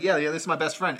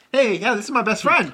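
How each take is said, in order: First: Said in the usual way. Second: High, loud imitated friend; retold happy exclamation; enthusiastic French friend. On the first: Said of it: "but Ghost Dog's like". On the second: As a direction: announce it proudly, pitched up. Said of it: "the French dude's like".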